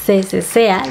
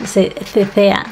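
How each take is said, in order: First: Said in the usual way. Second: "cesea" said slowly as "θeθea", both c's lisped like English th; slow lisped Castilian "cesea" demo; in a Castilian accent, "se cesea" with θ for the c's; Castilian ceceo. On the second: Shown as a demonstration. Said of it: "aquí solamente se cesea".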